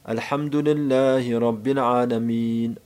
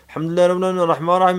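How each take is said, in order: First: Each word and letter is spoken slowly and distinctly. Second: The words are rushed together quickly without separation. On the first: The speaker calls it right. "Tek tek kelime kelime harf harf" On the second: The speaker calls it wrong. "Böyle değil"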